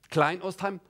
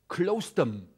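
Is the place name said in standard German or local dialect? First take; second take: standard German; local dialect. First: It is said in standard German pronunciation. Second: It is said in a clipped local dialect form.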